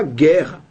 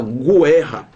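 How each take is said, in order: First: GUERRA with a silent U, "GHEH-ha"; correct pronunciation. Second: GUERRA with the U sounded, "gu-EH-ha"; wrong pronunciation. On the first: Teacher showing how guerra is really said, U left silent. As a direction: say GUERRA with hard G straight into E. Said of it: "Você fala guerra". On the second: Teacher showing students how guerra is not said, U pronounced. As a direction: say GUERRA wrongly as GWEH-ha, voicing the U. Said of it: "Você não fala guerra". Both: Shown as a demonstration.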